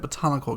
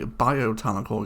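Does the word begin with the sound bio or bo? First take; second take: bo; bio. First: The word begins with the sound bo. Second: The word begins with the sound bio. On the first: The speaker calls it right. "It is called a botanical garden" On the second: The speaker calls it wrong. "I've been pronouncing this wrong"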